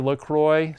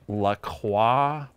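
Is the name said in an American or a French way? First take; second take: American; French. First: The name is pronounced in an American way. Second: The name is pronounced in a French way. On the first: The speaker calls it right. "This is an American product. It's Midwestern. They want to say LaCroix" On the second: The speaker calls it wrong. "I was mispronouncing the name of this drink. I was calling it LaCroix because I took an entire year of college French"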